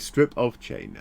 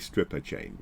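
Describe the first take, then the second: First: The word 'of' is pronounced clearly and separately. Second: The word 'of' blends into the preceding word. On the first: A piece of chain. The speaker calls it right. "be a little bit more careful with your pronunciation" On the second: A chain belonging to a stripper. The speaker calls it wrong. "not a stripper chain"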